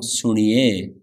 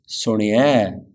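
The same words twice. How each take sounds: First: Suniye slowly, the ni stretched long; drawn-out E. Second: Suniye ending short, ni barely held. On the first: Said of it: "not suniye". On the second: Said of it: "Slight difference". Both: Shown as a demonstration.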